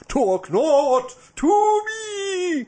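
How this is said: It is said in a theatrical, put-on voice.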